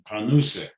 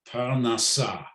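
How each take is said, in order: First: It is said with Yiddish pronunciation, ending in -use. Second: It is said with Hebrew pronunciation, ending in -asa.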